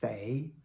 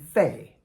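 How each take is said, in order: First: It is said with the second tone. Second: It is said with the fourth tone.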